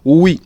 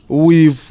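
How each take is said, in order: First: The word is reduced, dropping its final sound. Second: The word is said in full with its final sound. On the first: The speaker calls it right. "Instead we say we" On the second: The speaker calls it wrong. "we don't say with probabilities"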